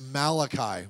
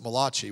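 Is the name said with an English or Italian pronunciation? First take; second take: English; Italian. First: The name is said with a plain English pronunciation. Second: The name is said with an Italian-style pronunciation. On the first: "But it's Malachi" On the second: "If you're Italian, you could pronounce it Malachi"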